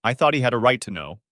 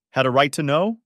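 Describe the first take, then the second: First: Said in the usual way. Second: Loud, higher-pitched indignant question; outraged, rising retort; incredulous echo. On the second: A narrator's reading. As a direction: throw the words back in disbelief. Mother throws daughter's words back.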